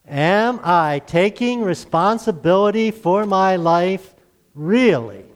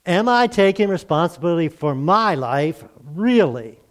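First: Slow, with "really" hit firmly as a challenge; stress on really. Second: Said in the usual way. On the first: Shown as a demonstration. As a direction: lean hard on the final "really?", said slowly and deliberately. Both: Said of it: "emphasizing the word really".

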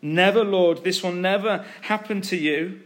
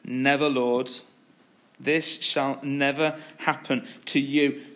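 First: Raised, louder protest; insistent acted refusal, leaning hard on never; emphatic rebuke. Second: Restrained, slow quoted rebuke; solemn refusal at an ordinary pitch; measured rebuke. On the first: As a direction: object forcefully, pitch lifted. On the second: Acted. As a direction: read the objection firmly, taking your time. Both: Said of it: "he began to rebuke him".

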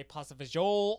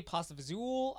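First: Pasta fagioli cut to fa-zhole; pasta fagioli ending like "zhole"; another dialect variant. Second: Pasta fazool with a Z and an OO ending; pasta fazool, buzzing Z, long OO; dialect variant. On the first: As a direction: say fagioli with a ZH and no final vowel. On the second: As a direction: say fazool to rhyme with pool. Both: Shown as a demonstration. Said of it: "I've heard people say".

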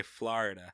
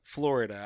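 First: "Florida" in a New Yorker's pronunciation; your own New York "Florida". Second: "Florida" echoed the local way; corrected, non-New York "Florida". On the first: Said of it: "you say it like a New Yorker". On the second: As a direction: repeat "Florida" as locals pronounce it. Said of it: "I say Florida". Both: Shown as a demonstration.

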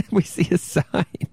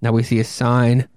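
First: Rereading it through a giggle; laughing. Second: Said in the usual way. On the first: Real, not acted. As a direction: laugh while repeating the words.

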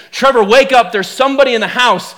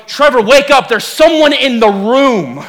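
First: Wife's retold warning, fairly contained; urgent but measured wake-up warning; first warning. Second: Imitated wife's alarm, slow and drawn out at the end; escalated warning. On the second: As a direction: heighten the warning, stretching the final words. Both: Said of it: "the warning changes".

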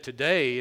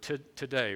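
First: "Today" punched louder, falling at the end; stress on today. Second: Said in the usual way. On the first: Shown as a demonstration. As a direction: hit the word "Today" hard and let it fall. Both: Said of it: "I want to emphasize that word".

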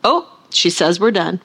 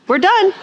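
First: Said in the usual way. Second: Higher, punchier repeat of we're done; mock declaration. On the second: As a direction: jump up high to announce we're done. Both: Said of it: "and he goes".

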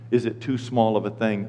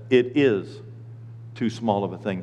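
First: "is it too small of a thing" low, as a question; question reading. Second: "It is", pause, then "too small of a thing" softer and lower; statement reading. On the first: Pastor showing the wrong verse, "is it" as question. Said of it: "And it doesn't say". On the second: Pastor showing true verse, "It is" stated, then pause. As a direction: state "It is" firmly, then drop quietly. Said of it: "It says". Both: Shown as a demonstration.

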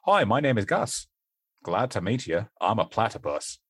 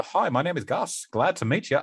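First: Australian accent attempt. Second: Higher-pitched, lightly Australian character accent; a little Australian accent for a children's-book platypus; Gus. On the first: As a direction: attempt a straight Australian introduction. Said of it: "That was me attempting to do an Australian". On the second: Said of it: "I do do a little accent for him". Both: Shown as a demonstration.

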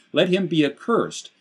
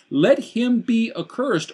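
First: Said in the usual way. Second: Slow, heavy stress on accursed; emphatic curse. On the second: Retold or imitated. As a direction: let him be accursed high and slow, each word weighed. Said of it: "I've got it highlighted in green here".

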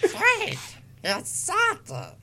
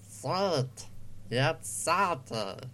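First: Slow, pitched-up duck voice gone wrong; Stitch. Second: Slow, half-hearted cartoon duck; failed Daffy Duck. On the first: Acted. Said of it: "that's still Stitch". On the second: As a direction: lightly attempt a Daffy Duck and miss. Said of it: "that's not a Daffy Duck voice".

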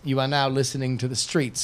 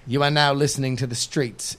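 First: Rapper tag in bad British accent. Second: Light rapper announcer voice; rapper impression. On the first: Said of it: "a really bad British accent?". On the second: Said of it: "It's my impression of the streets, the rapper".

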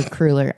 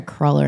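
First: "cruller" with a long oo in the first syllable; first vowel of "cruller" as in "crew"; alternative cruller pronunciation. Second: "cruller" with a short uh in the first syllable; first vowel of "cruller" as in "cull"; cruller pronunciation. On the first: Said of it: "I think it's cruller". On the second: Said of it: "or cruller". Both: Shown as a demonstration.

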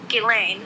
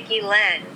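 First: "Ghislaine" said gee-LANE, long A; long final vowel in "Ghislaine", silent S; chosen pronunciation. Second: "Ghislaine" said gee-LEN, short final vowel; short E in the last syllable of "Ghislaine"; variant pronunciation. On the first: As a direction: settle on "Ghislaine" ending like lane. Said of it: "I'm gonna go with Ghislaine". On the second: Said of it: "some people say Ghislaine". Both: Shown as a demonstration.

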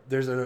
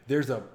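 Both takes have the same delivery.

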